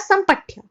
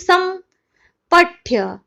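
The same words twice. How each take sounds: First: The word is said joined as one unit. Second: The word is split into separate parts. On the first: The speaker calls it right. "इसको एक साथ ही बोलना पड़ेगा" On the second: The speaker calls it wrong. "आप ऐसा नहीं बोल सकते कि"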